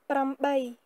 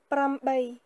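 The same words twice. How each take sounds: First: The word is said in full, starting with pr. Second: The word is said in full, starting with pr.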